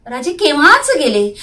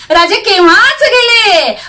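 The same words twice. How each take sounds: First: Said in the usual way. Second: High, loud triumphant cry; defiant shout with raised pitch; triumphant exclamation. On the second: A narrator's reading. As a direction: proclaim it loudly to the enemy. Captive repeats it triumphantly, louder.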